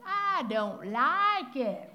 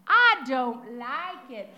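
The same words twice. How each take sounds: First: Slow, drawn-out mock pout; stubborn refusal. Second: Loud, slow and stubborn; a granddaughter stubbornly refusing her grandmother's hairdo, loud and slow; child's flat refusal. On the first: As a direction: sulk it out slowly like a defiant child. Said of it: "that's what we're like with God". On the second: Retold or imitated. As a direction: plant your feet and refuse it, slowly and loudly. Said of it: "she was quick to tell me".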